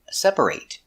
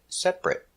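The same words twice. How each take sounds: First: The final syllable has a full 'ate' vowel. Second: The final syllable is a reduced 'it' sound. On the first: The word is used as a verb. "like separate is a verb" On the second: The word is not used as a verb. "if it's not a verb, we pronounce it separate"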